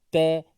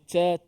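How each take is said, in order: First: The consonant is a light t with slight breath. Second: The consonant sounds like a ch with heavy breath. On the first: The speaker calls it right. "huruf ta sekadar kita sebut ta, ti, tu" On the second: The speaker calls it wrong. "huruf ta ni kena sebut ca, ci, cu. Dah ada yang baca macam tu"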